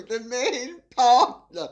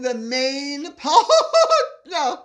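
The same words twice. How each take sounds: First: Said in the usual way. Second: Loud, high, slow words burst apart by laughter; cracking up. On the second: Real, not acted. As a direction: lose it laughing halfway through reading. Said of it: "I'll read that again".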